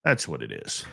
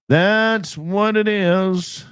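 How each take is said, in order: First: Said in the usual way. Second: "That's what it is" slow, higher and louder, stretched on "it"; drawn-out emphasis. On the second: Acted. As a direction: stretch out "That's what it is" slowly and loudly, leaning on "it". Repeats the line for emphasis.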